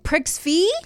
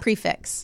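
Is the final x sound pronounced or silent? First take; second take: silent; pronounced. First: The final x sound is left silent. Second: The final x sound is pronounced. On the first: The speaker calls it wrong. "No, that doesn't sound right" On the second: The speaker calls it right. "I think prefix is right"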